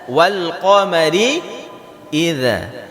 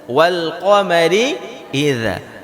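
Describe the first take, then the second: First: The consonant is said with tongue between teeth. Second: The consonant is said with tongue between teeth.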